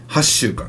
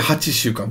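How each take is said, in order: First: The number is clipped to hass with doubled s. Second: The number is said in full as hachi. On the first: The speaker calls it right. "It's はっしゅうかん" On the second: The speaker calls it wrong. "I feel like you want to say はちしゅうかん, but it's wrong"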